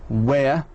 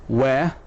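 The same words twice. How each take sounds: Both takes have the same delivery.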